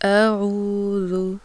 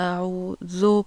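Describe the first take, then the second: First: The final vowel is a pure 'u' sound. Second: The final vowel is an 'o' sound. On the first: The speaker calls it right. "ज़ाल की पेश को मजहूल पढ़ना, यानी आऊज़ु की जगह" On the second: The speaker calls it wrong. "ज़ाल की पेश को मजहूल पढ़ना"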